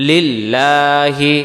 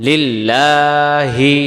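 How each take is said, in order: No difference in how they are said.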